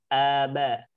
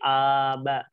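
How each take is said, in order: First: Both syllables have equal strength. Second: The two syllables differ in strength. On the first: The speaker calls it right. "Kadar suaranya disamakan" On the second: The speaker calls it wrong. "Jangan sampai aba"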